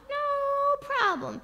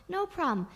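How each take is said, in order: First: High, very long first word; drawn-out reassurance. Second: Said in the usual way. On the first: Retold or imitated. Father coaxes child about burning mole, long high crooning. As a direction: stretch NO right out, up high.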